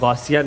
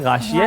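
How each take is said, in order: First: The name is said with an 'au' and 's'. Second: The name is said with an 'aa' and 'sh'. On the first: The speaker calls it wrong. "मेरा नाम गौसिया नहीं है" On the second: The speaker calls it right. "गाशिया है"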